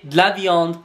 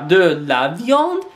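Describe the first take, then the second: First: The vowel in 'de' is dropped. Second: The vowel in 'de' is fully pronounced. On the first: "des apostrophes" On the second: "c'est pas de"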